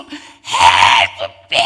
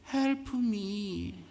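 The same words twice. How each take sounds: First: It is shouted loudly and hoarsely. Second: It is said quietly and timidly.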